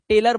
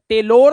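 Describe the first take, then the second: First: The last syllable has a reduced 'er' vowel. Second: The last syllable has a full 'or' vowel. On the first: The speaker calls it right. "टेलर बोलते हैं" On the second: The speaker calls it wrong. "टेलोर नहीं बोलते"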